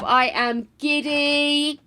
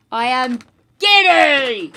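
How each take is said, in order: First: Slow, stretched-out giddy delight. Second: Loud, drawn-out burst on "giddy"; emphatic giddy. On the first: Streamer thanking Harb for the present, slow giddy delight. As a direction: draw out each word with glee. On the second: Streamer repeating their delight to viewers, loud giddy outburst. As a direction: hold back, then let "giddy" burst out slowly. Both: Real, not acted.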